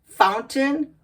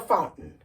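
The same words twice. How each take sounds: First: The middle T is clearly pronounced. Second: The middle T is swallowed as a stop. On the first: "First the regular way" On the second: "then the stop T"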